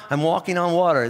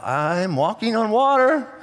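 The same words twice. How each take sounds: First: Said in the usual way. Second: Slow, drawn-out amazement; Peter walking on water. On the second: Acted. Peter marvels at walking on water, slow and drawn out. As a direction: stretch each word out in wonder. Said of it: "and he's like".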